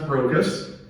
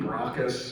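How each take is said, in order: First: The first syllable has a long o, like 'broke'. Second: The first syllable has a short o, like 'brock'. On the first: "I'm pretty sure that it was pronounced Brocus" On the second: "it could be Brockus"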